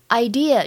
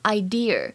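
First: The word ends without an r sound. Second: The word ends with an added r sound. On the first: The speaker calls it right. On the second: The speaker calls it wrong.

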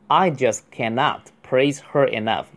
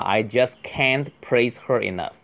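First: The negative is said in full as cannot. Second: The negative is contracted, ending in a t. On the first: "就读成cannot" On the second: "可以读I just can't.T 一定要哈"

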